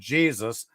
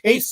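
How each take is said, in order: First: The name begins with a J sound. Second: The name begins with an H sound. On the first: The speaker calls it wrong. "I'm not going to say" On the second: The speaker calls it right. "is the way you pronounce it correctly"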